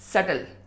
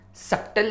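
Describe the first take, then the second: First: No consonant is heard before the t. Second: A 'p' sound is heard before the t. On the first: The speaker calls it right. "बी silent है" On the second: The speaker calls it wrong. "सप्टल नहीं होता है"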